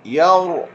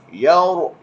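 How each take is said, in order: The two takes are said the same way.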